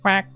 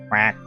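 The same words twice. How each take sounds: First: The quack is said in a higher voice. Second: The quack is said in a deep voice. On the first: "Can I do a higher quack?" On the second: "I have a deep quack"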